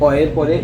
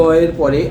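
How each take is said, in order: The two takes are said the same way.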